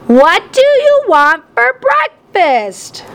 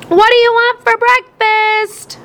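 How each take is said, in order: First: High, drawn-out yell over the din; yelled, slower. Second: High, slow call across a noisy room; shouted over the TV. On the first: Mom repeats her question to Dad, yelling slowly. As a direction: stretch each word to cut through the noise. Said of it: "Mom yelled". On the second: Mom calls to Dad over the TV, shouting. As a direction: project it over the blaring TV. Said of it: "Mom shouted". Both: A narrator's reading.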